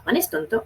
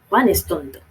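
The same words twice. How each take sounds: First: It is said with questioning intonation. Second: It is said with emphatic exclaiming intonation. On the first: It asks whether something is true. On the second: It exclaims something with feeling.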